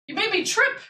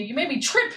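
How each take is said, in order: First: High squeaky mock complaint; mock scolding. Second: Said in the usual way. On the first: Real, not acted. Teasing the cat for tripping her, high baby talk.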